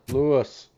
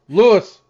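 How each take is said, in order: First: It is said flatly, without concern. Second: It is said with a worried, urgent tone.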